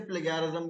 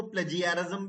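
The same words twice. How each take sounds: First: "प्लेगैरिज्म" with a hard g as in go; "प्लेगैरिज्म", hard g, no j sound; hard-g pronunciation. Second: "प्लेजियरिज्म" with a j sound and an "i" glide; "प्लेजियरिज्म", the g softened to j; soft-g pronunciation. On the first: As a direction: say "प्लेगैरिज्म" as play-gai-rizm. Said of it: "कुछ इसे प्लेगैरिज्म भी बोलते हैं". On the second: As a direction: say "प्लेजियरिज्म" as play-jee-uh-rizm. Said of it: "कुछ लोग इसको प्लेजियरिज्म भी बोलते हैं". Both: Shown as a demonstration.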